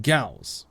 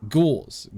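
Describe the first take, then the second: First: "Gauss" with an ow vowel; Gauss like house. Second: "Gauze" with a long aw vowel; Australian Gauze. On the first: Streamer comparing two pronunciations, "Gauss" like house. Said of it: "Gauss like house". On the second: Streamer comparing two pronunciations, "Gauze" with aw. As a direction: say "Gauze" with aw, not ow. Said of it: "it's in an Australian accent". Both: Shown as a demonstration.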